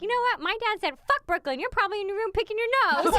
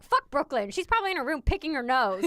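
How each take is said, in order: First: High, louder imitation of a child talking back; defiant little girl. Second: Lightly voiced indignant dad, louder; a hint of a blunt, protective father. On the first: Mother quoting daughter confronting her bully, high and defiant. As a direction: imitate a kid standing up for herself, pitched up. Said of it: "and she's like". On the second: Mother quoting husband defending their daughter, mildly indignant. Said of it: "protective dads and their little girls".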